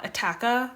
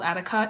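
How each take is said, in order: First: The middle syllable has a short 'a' vowel. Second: The middle syllable has a short 'i' vowel. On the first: The speaker calls it right. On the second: The speaker calls it wrong.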